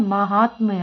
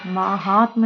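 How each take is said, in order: First: "महात्म्य" ending "tmya"; correct ending. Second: "महात्म" ending "tma", without y; wrong ending. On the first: Teacher gives the correction, glided "महात्म्य". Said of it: "होता है". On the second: Teacher rejects the mistake, y-less "महात्म". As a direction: stretch "महात्म" and stop on tma. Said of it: "नहीं होता है". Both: Shown as a demonstration.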